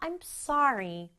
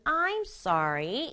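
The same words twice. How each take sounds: First: The stress is on sorry. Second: The stress is on I'm.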